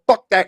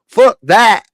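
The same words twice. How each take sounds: First: It is said in the speaker's plain accent. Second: It is said in a hillbilly accent.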